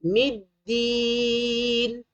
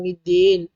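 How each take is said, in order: First: "Middin" with a long clear "ee"; correct vowel. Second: "middin" with last vowel lowered to "den"; wrong vowel. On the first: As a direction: recite "Middin" higher, softer, stretched. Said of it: "Tu sebutan dia". (baca "Middin" panjang, bunyi "i" jelas) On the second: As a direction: say "middin" as "midden". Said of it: "Bukan middin". (sebut "middin" jadi "midden") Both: Shown as a demonstration.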